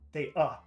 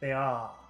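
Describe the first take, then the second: First: The final vowel is short and clipped. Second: The final vowel is long and drawn out. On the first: It is hard to understand and means nothing. The speaker calls it wrong. "if you say uh, the short sound, that would be very difficult to understand" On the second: It is understood as the verb to be. The speaker calls it right. "It has to be very long in duration"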